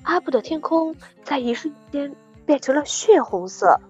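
The voice is light, airy and affected.

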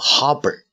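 It is said with an American accent. "如果是美国音呢读harbor"

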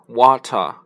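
The middle consonant is a clear t. "英国人是发water"

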